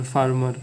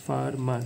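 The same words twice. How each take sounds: First: Said in the usual way. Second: farmer in two beats, ফার then মার; split into syllables. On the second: Shown as a demonstration. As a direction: break farmer after ফার, falling at the end. (Farmer দুই ভাগে ভেঙে বলা) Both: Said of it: "এটাকে দুইবারে ভাঙাইতে পারতেছি".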